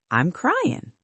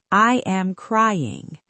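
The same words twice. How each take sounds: First: "I'm cryin'" short, g dropped; song English. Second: Careful, slow "I am crying" with every sound; school English. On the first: Teacher shows the song way: quick "I'm cryin'", no g. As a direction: slur "I'm cryin'" like a singer. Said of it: "It sounds softer". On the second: Teacher shows the school way: slow careful "I am crying". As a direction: spell out "I am crying" like a textbook. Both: Shown as a demonstration.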